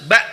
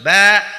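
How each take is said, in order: First: The sound is stopped short and crisp. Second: The sound is let flow and drawn out. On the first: The speaker calls it right. "harus ba jelas ya" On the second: The speaker calls it wrong. "nggak boleh ba. Kalau ba itu berarti dia e, rokhawah dialirkan"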